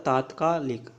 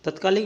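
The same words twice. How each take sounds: First: तात्कालिक with long "taat"; correct form. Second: तत्कालिक with short first "tat"; brief first vowel in तत्कालिक; wrong form. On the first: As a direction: say तात्कालिक as taat-kaa-lik. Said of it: "ये होता है". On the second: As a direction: say तत्कालिक as tut-kaa-lik. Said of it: "नहीं होता". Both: Shown as a demonstration.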